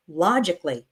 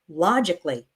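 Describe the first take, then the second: First: The 'a' syllable before 'ly' is dropped. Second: The same.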